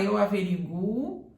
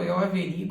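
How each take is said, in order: First: The stress falls on the 'gu' syllable. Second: The stress falls on the 'ri' syllable. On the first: "você ainda pode falar eu averiguo e está certo" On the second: "Se você coloca esse acento aqui em averi, averigo"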